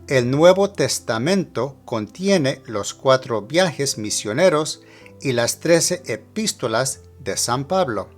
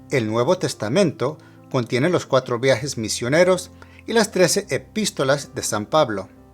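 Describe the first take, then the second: First: The sentence is spoken slowly. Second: The sentence is spoken at normal conversational speed. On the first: "one time at a slower speed" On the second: "Now at regular speed"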